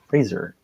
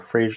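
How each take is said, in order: First: The name rhymes with the word laser. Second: The name sounds like the sitcom title Frasier. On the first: The speaker calls it right. "It's Fraser, E R" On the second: The speaker calls it wrong. "There is no Frasier like the show"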